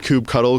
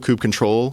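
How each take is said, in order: First: The ending is said as the word cuddle. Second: The ending is said as the word control. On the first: "is it kube cuddle"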